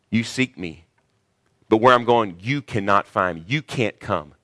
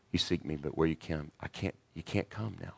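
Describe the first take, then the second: First: Firm and pointed, louder on where; stern rebuke. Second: Much softer, lovingly; gentle, tender. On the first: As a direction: warn them off coldly. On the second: Jesus to his beloved disciples, soft and tender. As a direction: soothe them like your own children. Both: Retold or imitated. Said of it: "He didn't say it like that with the disciples".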